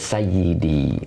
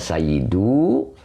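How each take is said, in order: First: The word ends with an 'i' vowel. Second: The word ends with an 'u' vowel. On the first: It is easier to say. The speaker calls it right. "Jadi bacanya sayyidi begitu" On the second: It is heavy and hard to say. The speaker calls it wrong. "kalau dibaca sayyidu berat, susah"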